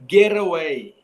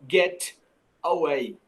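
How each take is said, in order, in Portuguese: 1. O T emenda direto na vogal seguinte. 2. O T é cortado antes da vogal seguinte. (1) "nós vamos juntar a pronúncia do T com a pronúncia do A" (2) "e não"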